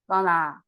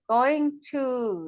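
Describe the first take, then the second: First: The words are reduced into one short word. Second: Both words are said in full.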